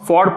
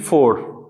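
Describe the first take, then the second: First: The vowel is open, sounding like 'for'. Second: The vowel is closed, sounding like 'four'. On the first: The speaker calls it right. "इसको हम फॉर पढ़ेंगे" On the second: The speaker calls it wrong. "ये फोर गलत है, फोर का मतलब होता है ये एफ ओ यू आर"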